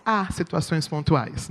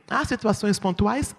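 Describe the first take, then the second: First: "Há situações pontuais," answered in a softer voice with a falling tune. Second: "Há situações pontuais?" asked with the tune rising at the end; rising question. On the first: Preacher answering her own question to the congregation, softer falling tune. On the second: Preacher asking the congregation a question before answering it, rising tune. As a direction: pose "Há situações pontuais?" as a real question, voice going up. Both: Shown as a demonstration.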